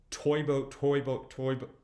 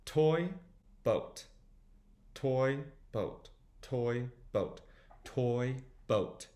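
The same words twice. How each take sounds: First: Quick back-to-back tongue twister; fast repeats. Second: Separated words with pauses; slow demonstration. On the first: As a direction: rattle it off several times in a row. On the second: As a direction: sound out each word on its own. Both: Shown as a demonstration. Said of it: "Try saying it a few times fast".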